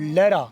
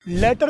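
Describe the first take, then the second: First: The middle t is a soft, quick flap. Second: The middle t is a clear, hard t. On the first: The speaker calls it right. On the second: The speaker calls it wrong.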